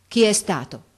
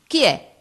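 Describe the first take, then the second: First: Mildly agitated, louder questioning; upset voice. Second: High, loud demand from an angry teacher; raised-voice shout. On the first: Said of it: "con voce alterata domandò". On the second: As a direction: shout the question sharply. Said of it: "gridò un'altra volta, alzando ancora la voce". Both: A narrator's reading.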